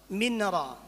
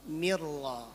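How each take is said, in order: First: The n sound is pronounced before the r. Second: The n sound merges into the following r.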